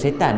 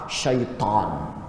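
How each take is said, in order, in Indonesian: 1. Suku kata pertama ialah 'se', dengan bunyi 's' biasa. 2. Suku kata pertama ialah 'shai', dengan bunyi 'sh'. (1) "Kita sebut setan" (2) "Ahmad Nisfu dia punya sebutan makhraj dia tepat"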